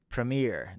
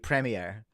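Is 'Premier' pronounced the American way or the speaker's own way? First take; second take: American; own way. First: The word is said with an American pronunciation. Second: The word is said with a non-American pronunciation. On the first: "for all my American friends who are watching, you're probably going to say Premier" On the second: "So for me, it's always going to be Premier"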